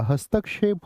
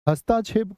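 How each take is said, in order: First: "हस्तक्षेप" said as hastak-shep, k then sh; "हस्तक्षेप" with a clear क्ष; correct क्ष sound. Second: "हस्तक्षेप" said as hastachhep, chh for ksh; "हस्तक्षेप" with छ replacing क्ष; wrong pronunciation with छ. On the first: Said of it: "होता है". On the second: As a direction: mispronounce "हस्तक्षेप" with a chh sound, no k. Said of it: "कभी भी नहीं होता". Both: Shown as a demonstration.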